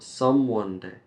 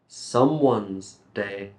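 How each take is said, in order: First: 'Someone' has no 's' sound at the end. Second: 'Someone' ends with an 's' sound. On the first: The speaker calls it wrong. "not someone day" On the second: The speaker calls it right. "someone's day better"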